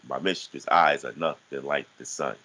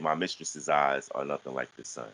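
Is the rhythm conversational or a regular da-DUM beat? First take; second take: da-DUM beat; conversational. First: It has a regular alternating da-DUM beat. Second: It has natural conversational rhythm.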